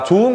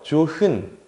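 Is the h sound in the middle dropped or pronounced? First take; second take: dropped; pronounced. First: The h sound is dropped between the syllables. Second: The h sound is pronounced between the syllables. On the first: The speaker calls it right. "이런 식으로 탈락하는 말이 되겠고요" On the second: The speaker calls it wrong. "이렇게 안 하지"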